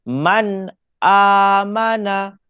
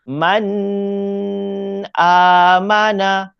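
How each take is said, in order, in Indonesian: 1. n jelas, tanpa dengung sengau. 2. n dibaca dengan dengung sengau yang panjang. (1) "bacaan yang betul" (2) "Ni kalau dibaca dengung. Tapi tak boleh, salah"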